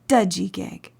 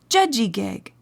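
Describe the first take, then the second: First: The word begins with a d sound. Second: The word begins with a j sound. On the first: "some people pronounce the word Dudgegig" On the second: "the Mi'kmaq word for healthy is Judgegig"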